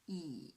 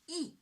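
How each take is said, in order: First: The pitch dips low, then rises again. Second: The pitch falls sharply from high to low. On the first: "the third tone, yes, from two to one to four" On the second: "the fourth tone, from five to one, ... short and strong"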